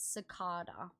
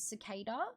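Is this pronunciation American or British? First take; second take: British; American. First: It is said with a British pronunciation. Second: It is said with an American pronunciation. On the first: "in British English, how us Australians talk, it's cicada" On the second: "So American pronunciation is cicada"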